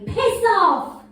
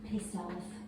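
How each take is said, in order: First: It is said in an angry tone. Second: It is said in a neutral tone.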